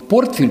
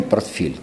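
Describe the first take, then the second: First: "Портфель" stressed on the first syllable, ПОРТ; stress variant. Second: "портфель" stressed on the last syllable, ФЕЛЬ; stress variant. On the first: Linguist shows an unequal variant, first syllable of "Портфель" stressed. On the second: Linguist shows the other variant, last syllable of "портфель" stressed. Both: Shown as a demonstration. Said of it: "два варианта неравноценные".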